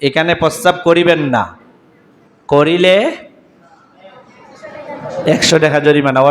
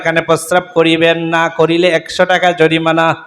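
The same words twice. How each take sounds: First: There is a pause after the word না. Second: The words run on with no pause after না. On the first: Urinating here is forbidden and fined. The speaker calls it right. "এখানে তামতেই হবে" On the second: The meaning changes from the intended prohibition. The speaker calls it wrong. "তালে তালে টান দিয়ে মিলে পড়ো"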